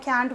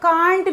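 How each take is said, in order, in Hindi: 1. इस स्वर की ध्वनि छोटी और आगे की 'a' जैसी है। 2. इस स्वर की ध्वनि लंबी और खुली 'ah' जैसी है। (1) "तो मैं कैंट बोलती हूँ" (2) "जिसको बहुत से लोग कांट भी बोलते हैं"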